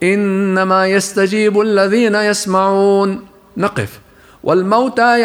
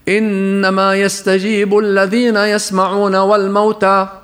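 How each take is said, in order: First: There is a clear stop after يسمعون. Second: It runs straight on without a pause after يسمعون. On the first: Only those who hear respond; the dead are a new statement. The speaker calls it right. "فالصح أن نقول ... نقف" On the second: The dead also respond. The speaker calls it wrong. "اسمع كيف تصبح إذا وصلناها بما بعدها ولم نقف"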